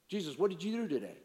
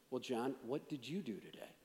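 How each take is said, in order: First: Brisk, chatty question; quick casual question. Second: Low, soft, with "you" stressed; question turned back. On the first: Man making small talk with Jesus, quick and casual. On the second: Jesus answering a question with a question, low and soft. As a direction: hand it back quietly, leaning on "you". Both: Pretend.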